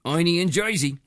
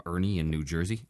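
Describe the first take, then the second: First: Hammed-up Jersey accent; playful New Jersey twang. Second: Said in the usual way. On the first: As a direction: say it like a thick Jersey local. Repeats place name in local accent.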